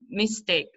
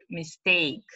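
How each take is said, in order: First: "Mistake" as MIS-take; first-syllable stress. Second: "mistake" as mis-TAKE; last-syllable stress. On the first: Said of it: "on the first syllable". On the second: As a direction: lean on the end of "mistake". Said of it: "it's on the last syllable". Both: Shown as a demonstration.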